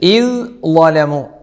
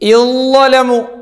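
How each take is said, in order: First: A 'd' sound is heard before the second part. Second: No 'd' sound; it merges into a doubled consonant. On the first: This is how it is written. "ഇദ് ലലമു എന്നാണ് ഉള്ളത്" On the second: This is how it is recited. "ദാല് തീരെ ഉണ്ടാവില്ല"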